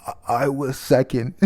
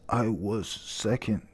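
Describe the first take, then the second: First: Said in the usual way. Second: A hint of a wounded old pirate; quiet gruff correction. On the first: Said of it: "He said". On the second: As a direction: say it slowly and softly like a proud old man setting the record straight. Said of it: "he says, he says".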